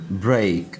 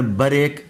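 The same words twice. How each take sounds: First: ब्रेक in one syllable, b straight into r; joined br cluster. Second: ब्रेक said "ba-rek", short "a" after b; wrong added vowel. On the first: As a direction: model ब्रेक with no vowel after b. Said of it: "बी पर ब्रेक नहीं बोलना". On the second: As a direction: split ब्रेक into two syllables, ba-rek. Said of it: "नहीं बोलना". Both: Shown as a demonstration.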